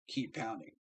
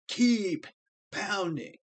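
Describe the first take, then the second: First: The phrase is said in a plain, calm voice. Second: The phrase is said loudly and with force. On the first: It is just a casual slogan. The speaker calls it wrong. "it's not just keep pounding" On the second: It carries deep meaning and commitment. The speaker calls it right. "That's why we say it like that"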